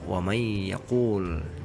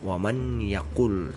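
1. Bunyi n melebur ke dalam y. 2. Bunyi n terdengar sebelum y. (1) "dibaca ... dileburkan" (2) "tidak dibaca"

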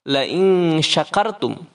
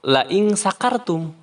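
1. Kata kedua diawali dengan bunyi sh. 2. Kata kedua diawali dengan bunyi s biasa. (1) "kalau pakai sya artinya sesungguhnya apabila kalian bersyukur" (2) "kalau misalkan pakai sin, sesungguhnya apabila kalian mabuk"

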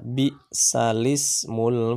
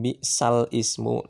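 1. Harakat pindah ke huruf l tanpa berhenti. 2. Ada hamzah sebelum ismu. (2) "Aslinya kan"

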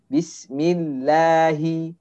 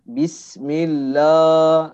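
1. Vokal 'lah' terdengar tipis dan ringan. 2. Vokal 'lah' terdengar tebal dan berat. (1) "harusnya kita tipiskan Bismillahi, nah seperti itu" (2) "contoh misalkan Bismillah, lah ya"

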